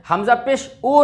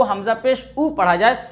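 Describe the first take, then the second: First: ओ as an open 'o' instead of 'oo'; majhul vowel, wrong. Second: ऊ as a closed 'oo', lips rounded; maruf vowel. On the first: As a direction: loosen the pesh into ओ. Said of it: "ये मजहूल आवाज़". (ओ वाली मजहूल आवाज़) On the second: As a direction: say ऊ with the pure u sound. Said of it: "मारूफ पढ़ा जाए". (ऊ की मारूफ आवाज़) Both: Shown as a demonstration.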